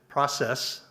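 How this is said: It is said with an American pronunciation.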